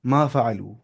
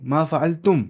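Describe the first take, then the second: First: मा फ़अलू said ending in a plain long लू, no तुम; the slip, मा फ़अलू; quick first try मा फ़अलू before the correction; mistaken form. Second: मा फ़अलतुम said in full, ending on तुम; correcting himself, मा फ़अलतुम with the तुम ending; corrected form. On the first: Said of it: "sorry, मा फ़अलतुम". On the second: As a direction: fix it to मा फ़अलतुम. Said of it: "sorry". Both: Shown as a demonstration.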